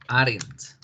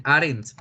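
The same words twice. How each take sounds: First: Aren't said slowly and clearly for copying; teacher modelling aren't; slow model aren't. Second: Said in the usual way. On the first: Shown as a demonstration. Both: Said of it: "podemos decir".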